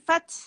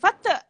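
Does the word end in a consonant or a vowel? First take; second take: consonant; vowel. First: The word ends on a stopped consonant. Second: The word ends with an added vowel. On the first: The speaker calls it right. "Bila dimatikan, Fat" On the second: The speaker calls it wrong. "Jangan Fata"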